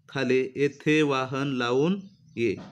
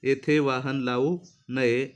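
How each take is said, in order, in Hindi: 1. शब्द-विराम lavun के बाद और ye से पहले आता है। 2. शब्द-विराम lavu के बाद और naye से पहले आता है। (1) "इथून नये पासून तोडलेला आहे" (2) "तो या ठिकाणी लावू न जोडलेला आहे"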